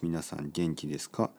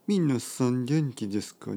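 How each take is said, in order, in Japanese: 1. 声は平坦で、リズムが一定です。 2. 声は生き生きしていて、リズムに変化があります。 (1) "もしくはもっと平坦に感じるかな" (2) "ちょっと面白い感じで話してますよね"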